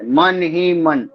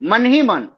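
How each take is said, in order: First: The phrase is said slowly and carefully. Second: The phrase is said fast and run together. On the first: "धीमी गति से" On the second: "तीव्र गति"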